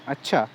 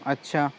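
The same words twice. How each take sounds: First: It sounds agreeable and accepting. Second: It sounds hesitant and unsure. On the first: The listener accepts the invitation. "स्वीकृति मतलब वो उस चीज़ को accept कर रहा है" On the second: The listener is unsure about the invitation. "Anishchay कर रहे"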